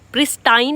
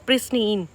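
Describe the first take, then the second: First: The last syllable rhymes with 'line'. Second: The last syllable rhymes with 'seen'. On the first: The speaker calls it wrong. "प्रिस्टाइन नहीं बोलेंगे, गलत हो जाएगा" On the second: The speaker calls it right. "इसको हम कैसे pronounce करेंगे? प्रिस्टीन"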